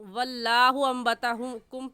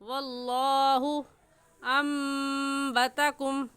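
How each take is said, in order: First: Allah is said light, with unrounded lips. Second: Allah is said heavy, with rounded lips. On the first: The speaker calls it wrong. "पढ़ना गलत है" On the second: The speaker calls it right. "सही है"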